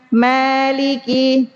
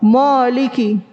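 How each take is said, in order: First: The first vowel sounds like 'a'. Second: The first vowel sounds like 'o'. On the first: The speaker calls it right. "Harusnya ma, maliki" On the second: The speaker calls it wrong. "Mo, moliki"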